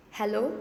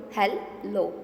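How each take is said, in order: First: Said in the usual way. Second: "hello" in two separate beats; teacher slowly breaking "hello" in two; split into syllables. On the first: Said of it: "how many sounds". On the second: Shown as a demonstration. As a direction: say "hello" as hel, pause, lo. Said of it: "Two sounds".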